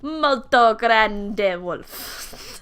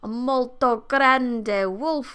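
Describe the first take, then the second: First: It is said in an exaggerated Italian accent. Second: It is said in a plain narrating voice.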